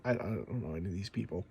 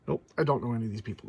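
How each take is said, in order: First: Much softer, muttered under the breath to himself; muttered aside. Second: Said in the usual way. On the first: Real, not acted. Collector flipping the credits mutters he knows nobody. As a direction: mumble it into the pages, half to yourself.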